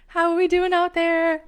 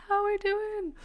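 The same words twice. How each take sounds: First: Loud, high host shout to the crowd; high, projected crowd call. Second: Very high little voice; high-pitched playful check-in; playful high echo. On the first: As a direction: holler it out to the audience. Calling out to live audience. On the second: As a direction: repeat it high, without shouting. Echoes the call more softly. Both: Real, not acted.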